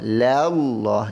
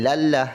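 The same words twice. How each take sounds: First: The l is pronounced heavy and full. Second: The l is pronounced light and thin. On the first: The speaker calls it right. "Allah ini dibaca dengan te, tebal" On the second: The speaker calls it wrong. "jangan lallah, lallah salah"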